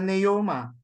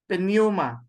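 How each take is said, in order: First: The word starts with n; no p sound. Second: A faint p sound comes before the n. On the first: The speaker calls it wrong. "others would simply ignore the P. It just becomes a neuma" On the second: The speaker calls it right. "Just a small p"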